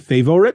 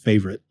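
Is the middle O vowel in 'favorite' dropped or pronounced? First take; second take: Pronounced; Dropped. First: The middle O vowel is clearly pronounced. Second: The middle O vowel is dropped. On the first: "I should always include that O in my enunciation" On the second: "instead of favorite"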